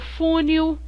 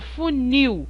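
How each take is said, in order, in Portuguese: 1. A tônica está na primeira sílaba. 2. A tônica está na última sílaba. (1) "Eu não falo funil" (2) "eu falo funil; O nil é muito mais forte que o u"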